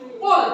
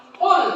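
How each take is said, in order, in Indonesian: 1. Konsonan pertama itu dalam, penuh, dan membulat. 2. Konsonan pertama itu dalam, penuh, dan membulat.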